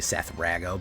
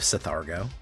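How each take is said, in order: First: The name is said as Seth, then Rah-go. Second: The name is run together as Seth-ar-go. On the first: The speaker calls it right. "It's actually Seth Rago" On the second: The speaker calls it wrong. "Which I always say wrong"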